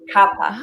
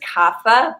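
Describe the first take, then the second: First: The h sound is left silent. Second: The h sound is pronounced. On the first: The speaker calls it right. "it's actually kapha. you don't pronounce the H" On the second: The speaker calls it wrong. "You'll often hear it pronounced as kapha"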